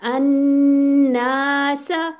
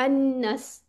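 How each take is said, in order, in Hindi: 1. अनुनासिक n और लंबे a दोनों को खींचकर पढ़ा जाता है। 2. अनुनासिक n और लंबे a को छोटा कर दिया जाता है। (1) "टू प्लस टू" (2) "इस तरह करके नहीं पढ़ना, यानी इसको ड्रॉप नहीं होने देना, ये कॉमन मिस्टेक है।"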